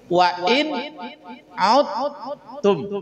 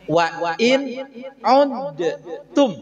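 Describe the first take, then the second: First: The d is merged into the following t. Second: The d is released with a bouncing echo. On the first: "Dibacanya jadi wa in udtum" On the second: "asalnya kan begini"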